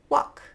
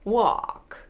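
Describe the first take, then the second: First: The vowel runs straight into k without L. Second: A dark L is heard before the k. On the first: "They're just going to be pronounced with a vowel sound" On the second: "You could move it backwards"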